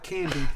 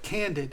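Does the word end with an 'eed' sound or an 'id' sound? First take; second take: eed; id. First: The word ends with a long 'eed' sound. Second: The word ends with a short 'id' sound. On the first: "Tina doesn't call it candied" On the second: "She calls it candid"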